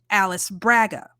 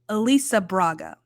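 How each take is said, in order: First: The first name is read as in American English. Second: The first name has its Brazilian Portuguese pronunciation. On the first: The speaker calls it wrong. "my brain wants to phonetically pronounce that Alice Braga. That's not right" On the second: The speaker calls it right. "Apparently, it's Elisa Elisa Braga, which is beautiful"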